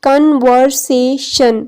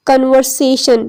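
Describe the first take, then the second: First: Conversation slowly as con, ver, sa, tion; syllable division. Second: Said in the usual way. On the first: Shown as a demonstration. Teacher showing class each syllable, conversation in four slow beats. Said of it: "कन अलग से एक syllable है". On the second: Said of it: "syllable की division हम देखते हैं".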